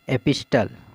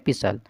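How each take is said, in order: First: A clear t sound is said after the s. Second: No t sound is said after the s. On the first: The speaker calls it wrong. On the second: The speaker calls it right.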